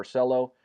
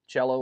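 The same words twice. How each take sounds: First: Cello opened with an s; s pronunciation. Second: Cello opened with a ch; ch pronunciation. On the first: Streamer giving the coin's alternative name, Cello said with s. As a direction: pronounce Cello as "SELL-oh". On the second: Streamer recalling his coin earnings, Cello said with ch. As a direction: pronounce Cello as "CHEL-oh". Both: Shown as a demonstration. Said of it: "Not sure how it's pronounced".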